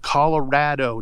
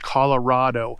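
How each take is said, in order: First: The stressed vowel sounds like the one in 'rad'. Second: The stressed vowel sounds like the one in 'father'. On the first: The speaker calls it right. "think of Colorado. It's rad" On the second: The speaker calls it wrong. "not Colorado"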